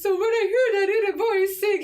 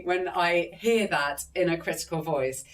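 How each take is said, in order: First: High-pitched cartoon mouse, louder than usual talk; Mickey Mouse. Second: Said in the usual way. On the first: Shown as a demonstration. Showing how she mocks her inner critic, squeaky cartoon mouse voice. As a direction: put on a squeaky little mouse voice. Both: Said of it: "I talk to myself in a Mickey Mouse voice".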